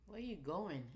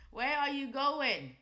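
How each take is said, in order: First: Said in the usual way. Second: Higher, louder, slow call after the chart; playful loud call. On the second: Real, not acted. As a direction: drag it out, calling the chart back. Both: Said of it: "same words twice".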